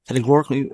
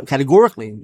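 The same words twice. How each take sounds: First: "categorically" slurred and garbled, syllables swallowed as "atoorkly"; fumbled word. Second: "categorically" said fully and clearly, kat-uh-GOR-ik-lee, stressed; careful correction. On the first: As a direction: trip over "categorically", dropping the g and middle sounds. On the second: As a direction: redo "categorically" cleanly with every syllable and the stress on "GOR". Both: Real, not acted. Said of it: "uh, categorically".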